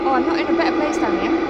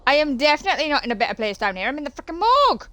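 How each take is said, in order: First: Loud, high alarmed cry; dismayed outburst. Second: Loud, climbing to a high yelp; rising dismay. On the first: Dismay at location. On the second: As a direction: push higher into freakout. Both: Real, not acted.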